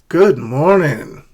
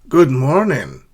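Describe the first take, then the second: The two takes are said the same way.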